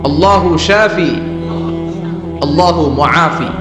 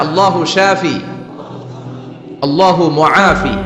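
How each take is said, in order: No difference in how they are said.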